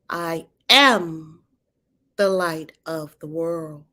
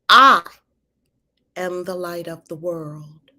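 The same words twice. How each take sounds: First: The stress falls on the word "am". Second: The stress falls on the word "I".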